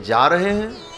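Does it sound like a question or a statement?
question. It is said as an asking question.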